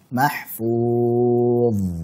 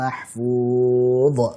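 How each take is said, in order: First: The final consonant is released softly and continuously. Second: The final consonant is released with a bounce. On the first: The speaker calls it right. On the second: The speaker calls it wrong. "salah ini"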